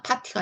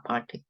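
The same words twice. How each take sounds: First: Said in the usual way. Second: "파티" with a light R closing the 파; slight R sound. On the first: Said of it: "요것도 그냥 파티가 아니라". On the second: Shown as a demonstration. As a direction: curl the tongue slightly on 파 in "파티". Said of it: "약간의 리을 발음이 있다". ("파티"의 '파' 끝에 리을 발음을 약간 넣어서)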